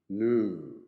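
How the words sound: It is said in an American accent. "new in American English"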